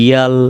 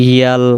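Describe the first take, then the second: The two takes are said the same way.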